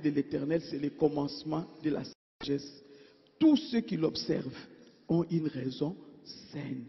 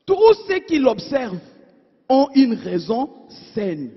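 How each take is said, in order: First: Much softer, fading repeat of the verse; soft repetition. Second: Louder, firm scripture reading; firm proclamation. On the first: Preacher repeating the verse to his congregation, softly and fading. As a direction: let the verse sink in, hushed. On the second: Preacher reading Psalm 111 aloud to his congregation, firm and louder. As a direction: declare the verse firmly to the church. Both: Acted.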